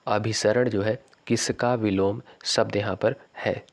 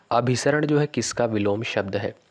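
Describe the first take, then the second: First: Slow, clear, fully voiced reread of the question; slow repeat. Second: Whispers the question, no voice at all. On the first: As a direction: spell the question out slowly for the class. Teacher repeats quiz question slowly. (प्रश्न को धीरे और साफ़ दोहराना) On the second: Teacher reads quiz question twice. (प्रश्न को फुसफुसाकर पढ़ना) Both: Shown as a demonstration.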